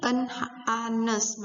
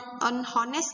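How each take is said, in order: First: Honest is said with no h sound at the start. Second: Honest is said with an h sound at the start. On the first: The speaker calls it right. "Ini en anes" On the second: The speaker calls it wrong. "en hones gak ada. Salah bacanya"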